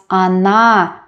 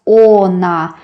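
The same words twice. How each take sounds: First: Она as 'a-NA', first vowel reduced to 'a'; она stressed at end. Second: Она with a full first 'o', 'oh-na'; spell-read она with a clear O; она as spelt. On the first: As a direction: stress the last syllable of она, opening with 'a'. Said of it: "because the last syllable is stressed". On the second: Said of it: "we don't pronounce она". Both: Shown as a demonstration.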